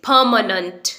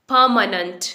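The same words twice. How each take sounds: The two takes are said the same way.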